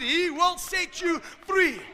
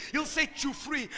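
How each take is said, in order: First: Loud, high and slow, each word weighted; raised pulpit voice, stretching the words out; emphatic preaching repeat. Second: Said in the usual way. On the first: Real, not acted. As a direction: drive it home to the congregation, drawn out.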